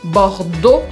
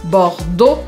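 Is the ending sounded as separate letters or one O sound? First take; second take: one O; one O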